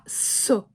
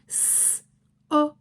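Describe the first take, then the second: First: The two sounds are blended into one syllable. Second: The two sounds are said separately with a break. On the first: "les deux sons qui sont associés, collés, fusionnés" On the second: "on passe du S, O"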